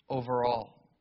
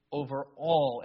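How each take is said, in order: First: Said in the usual way. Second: Over ALL with the weight on all; stress on all. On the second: Shown as a demonstration. Preacher stressing all to the congregation, weight on all. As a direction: lean hard on all, let it fall. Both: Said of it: "And I emphasize that word".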